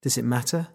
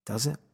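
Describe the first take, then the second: First: Said in the usual way. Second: Soft questioning murmur to yourself; asking oneself quietly. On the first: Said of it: "Is she even in there?". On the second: Acted. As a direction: turn the question inward, quietly. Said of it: "I ask myself".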